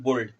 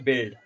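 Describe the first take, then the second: First: The vowel sounds like the o in bold. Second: The vowel sounds like the i in bit. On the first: The speaker calls it wrong. "इसका गलत उच्चारण लेते हैं लोग" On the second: The speaker calls it right. "ये होता है बिल्ड"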